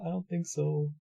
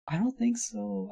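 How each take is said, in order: First: Said in the usual way. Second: High, slow skeptical drawl. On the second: Acted. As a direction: stretch it out, doubting. Doubting crime as money advice.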